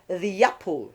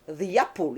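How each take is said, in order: First: A y sound links the two words smoothly. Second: The same.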